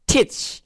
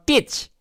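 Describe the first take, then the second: First: "teach" with a strongly aspirated, breathy t; correct pronunciation demo. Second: "teach" with a hard, unaspirated t; wrong pronunciation demo. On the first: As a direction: say "teach" as "theech", puffing air on the t. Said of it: "উচ্চারণ খেয়াল করুন". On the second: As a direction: say "teach" with no puff of air on the t. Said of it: "not teach". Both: Shown as a demonstration.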